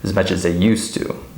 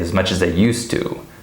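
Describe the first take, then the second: First: The word 'they' is unstressed and shortened. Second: The word 'they' is unstressed and shortened.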